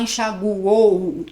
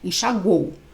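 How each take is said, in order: First: The final vowels are drawn apart like a howl. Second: The final vowels glide together in one breath. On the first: The speaker calls it wrong. "a gente não fala assim, parece que tá uivando" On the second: The speaker calls it right. "é um golpe de ar só"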